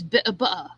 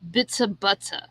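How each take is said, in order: First: The first word is cut off, without s. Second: The first word keeps its final s sound. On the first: "He cuts it off. It's bit of butter" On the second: "He doesn't say bits of butter"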